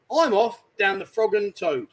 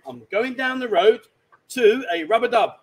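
First: Slow hinting. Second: Exaggerated slow clue; drawing it out so he gets it; slow, loud spelled-out hint. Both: Shown as a demonstration. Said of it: "let's use a bit of common sense".

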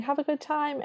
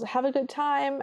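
First: A small hopeful goodbye, retold; calling Cinderella. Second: Higher, lightly called after them; a light hopeful call out the door; calling Cinderella. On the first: Cinderella retold saying goodbye as door shuts, lightly voiced and higher. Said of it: "She's just saying". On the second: Retold or imitated. Cinderella calling after stepsisters leaving, lightly voiced and higher. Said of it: "Cinderella calls".

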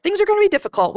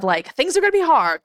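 First: Difficult pitched much higher than hard; rising emphasis. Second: Said in the usual way. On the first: Real, not acted. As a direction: lift "difficult" up high to stress it.

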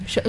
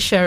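First: "Cher" with a central "shur" vowel; pronunciation of Cher. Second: "Cher" with an open "eh", like "share"; pronunciation of Cher. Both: Shown as a demonstration. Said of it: "is it Cher or Cher".

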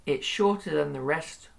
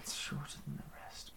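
First: Said in the usual way. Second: Unvoiced whispered repeat. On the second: Shown as a demonstration. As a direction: breathe the line back softly.

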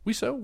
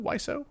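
First: Wiseau said as "WEE-so", questioning; first syllable as "wee". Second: Wiseau said as "WHY-so", questioning; first syllable as "why". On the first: Co-host unsure how to say the actor's name, Wiseau as "WEE-so". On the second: Co-host trying the other name reading, Wiseau as "WHY-so". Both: Shown as a demonstration. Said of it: "How do you say it?".

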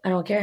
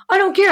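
First: The other man's unbothered comeback; retold indifference. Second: High, loud dismissal; re-enacted heated comeback; retold angry defiance. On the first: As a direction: brush her off without raising the voice. Old man's side, contrasted with hers. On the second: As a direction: fire it back at him, voice raised. Her side of retold quarrel.

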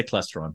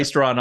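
First: "Clestron" with a short E in the first syllable; own pronunciation. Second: "Claystron" with a long AY in the first syllable; their pronunciation. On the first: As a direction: say "Clestron" as CLESS-tron. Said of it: "I'll say Clestron". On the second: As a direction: say "Claystron" as CLAY-stron. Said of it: "you guys say Claystron". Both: Shown as a demonstration.

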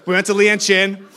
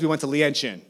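First: Lian Chin hit louder and higher; stress on Lian. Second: Said in the usual way. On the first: Real, not acted. Pastor repeating the restaurant name for the congregation, Lian stressed. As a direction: lean hard on Lian as the punchline. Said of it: "Just saying".

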